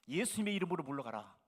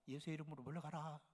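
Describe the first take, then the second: First: It is said boldly and with confidence. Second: It is said timidly, sounding scared.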